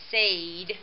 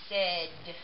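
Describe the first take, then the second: First: The vowel is a long A sound. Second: The vowel is a short E sound. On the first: The speaker calls it wrong. "It sounds like Sade if we follow the rule" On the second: The speaker calls it right. "it has a short E sound, like this"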